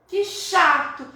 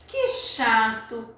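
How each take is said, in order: First: Put-on "que chato" higher and louder, like a sorry child; boy telling his story. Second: "que chato" drawn out slowly, like a sigh in verse; slow poem reading. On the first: Teacher as the boy regretting he hit the rat. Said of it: "o menino tá contando". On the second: Shown as a demonstration. Teacher slowly reads the poem's regret to the class. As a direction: let "que chato" linger. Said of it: "a explicação do José Paulo Paes".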